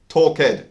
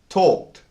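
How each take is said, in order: First: The ending is not a plain t sound. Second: The ending is a plain t sound. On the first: The speaker calls it wrong. "This is incorrect" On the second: The speaker calls it right. "We pronounce the ed as a t sound"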